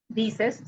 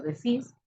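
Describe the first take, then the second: First: Said in the usual way. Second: Decís with the stress on the final CÍS; decís, stressed at the end as in voseo; stress on last syllable. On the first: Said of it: "sino decís". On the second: Shown as a demonstration. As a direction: punch the second syllable of decís. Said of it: "lleva el énfasis en la última sílaba".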